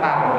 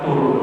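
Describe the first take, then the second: First: The syllable has the vowel a. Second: The syllable has the vowel u. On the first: "Mau dibaca tar benar" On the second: "mau dibaca tur benar"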